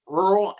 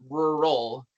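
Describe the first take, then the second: First: 'rural' run together toward one syllable; short, slurred-together 'rural'; demo of rural. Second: 'rural' split into two beats, RUR-al; demo of rural. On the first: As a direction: say 'rural' squashed into a single beat. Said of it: "how to pronounce it". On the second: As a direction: say 'rural' with both syllables sounded. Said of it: "one point five syllable count". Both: Shown as a demonstration.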